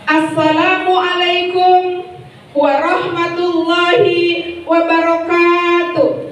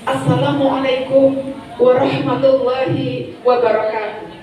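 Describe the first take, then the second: First: It is delivered with an elaborate, preacher-like intonation. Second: It is delivered with a plain, standard intonation. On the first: The speaker is acting as a preacher. The speaker calls it wrong. "Itu intonasi untuk apa? Ketika menjadi apa? Menjadi penceramah" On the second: The speaker is acting as a master of ceremonies. The speaker calls it right. "M C cukup"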